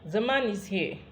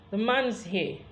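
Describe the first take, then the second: First: The shortened 'is' joins onto 'man'. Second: The shortened 'is' joins onto 'man'.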